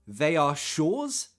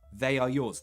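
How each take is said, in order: First: The word yours starts with a sh sound. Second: The word yours starts with a y sound. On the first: The speaker calls it wrong. "You don't add a sh there" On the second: The speaker calls it right. "That doesn't change"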